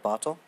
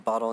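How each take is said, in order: First: The middle T is clearly pronounced as T. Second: The middle T is replaced by a different sound.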